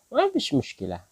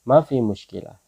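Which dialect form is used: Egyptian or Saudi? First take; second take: Egyptian; Saudi. First: The first word ends with a sh sound. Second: The first word ends with no sh sound. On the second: "Saudi ya"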